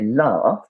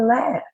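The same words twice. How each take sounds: First: It is said with a British English vowel. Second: It is said with an American English vowel. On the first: "In English, English, we say laugh" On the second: "in American English, people usually say laugh"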